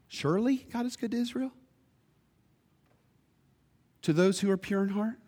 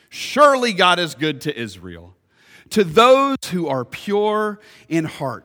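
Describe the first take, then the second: First: It ends rising, like a question. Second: It ends falling, like a statement.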